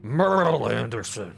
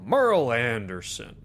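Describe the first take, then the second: First: It is said in a put-on character voice. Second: It is said in a plain, ordinary voice.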